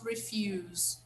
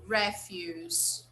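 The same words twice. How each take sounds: First: The stress is on the second syllable. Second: The stress is on the first syllable. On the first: The speaker calls it wrong. "It's not refuse" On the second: The speaker calls it right. "it's refuse, okay? It's a noun"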